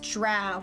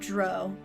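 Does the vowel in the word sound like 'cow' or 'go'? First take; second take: cow; go. First: The vowel sounds like the one in 'cow'. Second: The vowel sounds like the one in 'go'. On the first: The speaker calls it right. "it's also pronounced drow" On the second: The speaker calls it wrong. "not dro"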